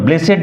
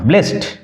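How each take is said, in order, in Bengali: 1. শব্দটি দুই দলে উচ্চারিত হয়। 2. শব্দটি এক দলে উচ্চারিত হয়। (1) "ব্লেসেড নয়" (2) "উচ্চারণ লক্ষ্য করো"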